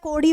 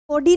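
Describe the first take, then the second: First: The middle consonant is a quick tongue flap. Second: The middle consonant is a plain d stop. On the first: The speaker calls it right. "कोडी होता है, नीचे अ, नुक्ता लगा हुआ है ना" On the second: The speaker calls it wrong. "कोडी नहीं होता है"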